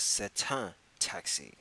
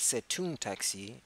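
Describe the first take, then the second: First: "un" nasal before "taxi", the right form; slow "c'est un taxi", nasal un; correct un. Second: "une" said yn before "taxi", the wrong form; slow "c'est une taxi", une stressed. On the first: Teacher giving the right form, slow with nasal un. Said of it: "it is". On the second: Teacher showing the mistake, slow with une. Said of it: "Notice that it is not". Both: Shown as a demonstration.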